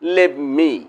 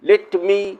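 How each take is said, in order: First: The words blend into one short reduced word. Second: Both words are said fully and separately. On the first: "assimilation" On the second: "পূর্ণরূপ"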